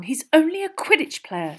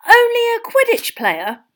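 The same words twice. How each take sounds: First: Higher, exasperated, falling at the end; impatient girl playing it down; exasperated dismissal. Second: High, loud, slow disbelief; scandalised fan, voice soaring up; incredulous echo. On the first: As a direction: brush it off impatiently with a falling tune. Hermione's dismissive take, echoed after. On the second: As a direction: throw it back as an outraged question. Ron incredulously echoes Hermione. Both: A narrator's reading.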